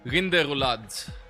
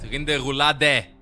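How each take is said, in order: First: The word ends without a final vowel sound. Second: The word ends with a sounded final E. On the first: The speaker calls it wrong. "I was getting it in French" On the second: The speaker calls it right. "Pronounce the E at the end"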